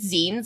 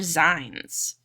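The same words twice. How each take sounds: First: The word rhymes with magazine. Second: The word does not rhyme with magazine. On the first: The speaker calls it right. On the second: The speaker calls it wrong.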